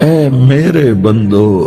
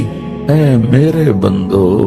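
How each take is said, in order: The two takes are said the same way.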